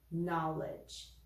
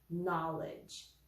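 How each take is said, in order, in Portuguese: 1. O som inicial do "k" é mudo. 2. O som inicial do "k" é mudo.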